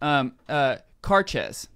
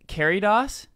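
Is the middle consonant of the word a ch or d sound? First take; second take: ch; d. First: The middle consonant is a ch sound. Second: The middle consonant is a d sound. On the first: The speaker calls it right. "Carches is how it's pronounced" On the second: The speaker calls it wrong. "That's totally wrong"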